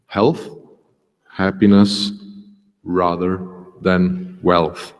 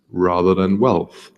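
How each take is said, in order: First: Health, happiness, rather, than wealth each set apart by a pause; slow emphatic recap with pauses. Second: Said in the usual way. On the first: Shown as a demonstration. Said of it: "repeats the quote, word by word". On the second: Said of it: "plain reading of the quote".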